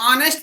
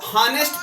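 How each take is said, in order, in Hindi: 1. शब्द स्वर की आवाज़ से शुरू होता है। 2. शब्द h की आवाज़ से शुरू होता है।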